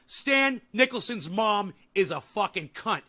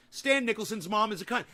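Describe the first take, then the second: First: Each word spelled out slowly and firmly; slow, deliberate, every word weighted; slow emphatic declaration. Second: Said in the usual way. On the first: Real, not acted. Streamer slowly immortalizing a chatter, slow and emphatic. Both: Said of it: "I wanna immortalize you on this show".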